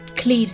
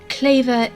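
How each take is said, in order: First: The name rhymes with sleeves. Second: The name rhymes with waver. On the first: The speaker calls it wrong. "not Cleves as in sleeves" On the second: The speaker calls it right. "Claver as in waver is the proper pronunciation"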